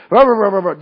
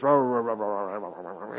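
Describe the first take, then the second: First: Louder, higher rah rah grumble; hammed-up griping noise; loud mock grumbling. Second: Low grumble fading to almost nothing; mock cartoon grumbling that dies away; Popeye murmuring. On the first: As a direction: gripe out loud like a cranky complainer. Mimicking murmuring after griping. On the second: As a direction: mumble under your breath like old Popeye. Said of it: "He was a murmurer".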